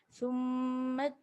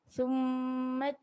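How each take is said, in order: Both takes have the same delivery.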